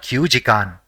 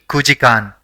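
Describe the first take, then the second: First: The first syllable is 'kyu', with a 'y'. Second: The first syllable is a plain 'ku'. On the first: The speaker calls it wrong. "and not kyujikan" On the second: The speaker calls it right. "it will be kujikan"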